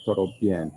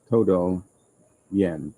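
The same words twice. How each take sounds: First: "todo bien" run quickly together; too fast. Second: "todo bien" said slowly, word by word; careful Spanish phrase. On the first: Learner showing his slip in Spanish, said too fast. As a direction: rush "todo bien" so todo blurs toward toro. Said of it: "if I say it too fast". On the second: Learner showing how to say totally good, slow careful pronunciation. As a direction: say "todo bien" carefully, pausing between the words. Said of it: "sometimes if I say it too fast". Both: Shown as a demonstration.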